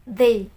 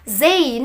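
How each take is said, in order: First: The word begins with a soft th sound. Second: The word begins with a buzzing z sound. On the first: The speaker calls it right. "tapi they" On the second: The speaker calls it wrong. "Jangan sampai bilang they, no wrong"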